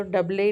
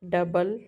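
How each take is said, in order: First: डबल ही said as "dub-lay", silent E voiced; wrong final E. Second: Said in the usual way. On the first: Shown as a demonstration. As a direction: sound out a final "ay" after डबल. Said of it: "नहीं होता". (डबल के अंत का ई गलत तरह से "डब्ले" बोलकर) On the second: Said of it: "जिसका प्रोनाउंसिएशन नहीं होता".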